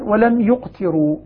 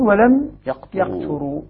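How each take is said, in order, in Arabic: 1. الحركتان في الفعل: u ثم i. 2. الحركتان في الفعل: a ثم i. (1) "فالذي يضم الياء يكسر التاء" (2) "قرأ غيرهم بكسر التاء وهم يفتحون الياء"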